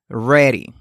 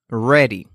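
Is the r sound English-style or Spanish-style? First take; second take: English-style; English-style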